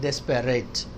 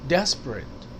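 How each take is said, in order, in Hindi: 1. बीच वाला शब्दांश पूरा बोला जाता है। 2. बीच वाला शब्दांश छोड़ा जाता है।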